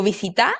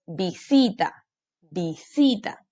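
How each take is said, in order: First: "visita" mispronounced as vi-si-TÁ, questioning; "visita" with rising stress on last syllable; wrong final stress. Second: "visita" as vi-SI-ta; "visita" drawn out with weight on SI; stress on middle syllable. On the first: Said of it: "Yo digo visita o digo". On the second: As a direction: lean on SI in "visita". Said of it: "Aquí está la sílaba tónica". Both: Shown as a demonstration.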